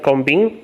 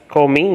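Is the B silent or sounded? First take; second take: sounded; silent. First: The B is pronounced aloud. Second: The B is left silent. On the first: The speaker calls it wrong. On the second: The speaker calls it right. "it should be pronounced as"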